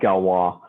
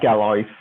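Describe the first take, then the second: First: The name is said with French pronunciation. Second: The name is read out as English spelling suggests. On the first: The speaker calls it right. "but it's pronounced Galois" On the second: The speaker calls it wrong. "it's spelled like Galois"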